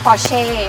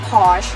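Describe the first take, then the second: First: It is said the Thai way. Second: It is said in a short Western way. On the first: This is how people in Thailand say it. "บ้านเราเรียก" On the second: This is how some Western countries say it. "ถ้าเป็นภาษาฝรั่งบางประเทศเขาก็จะเรียกสั้นๆว่า"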